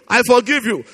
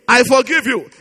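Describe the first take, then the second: No difference in how they are said.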